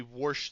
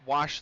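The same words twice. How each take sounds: First: "wash" said as "warsh"; Pittsburgh "warsh". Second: Said in the usual way. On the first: Shown as a demonstration. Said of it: "should be pronunciated wash". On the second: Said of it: "They don't wash the dishes".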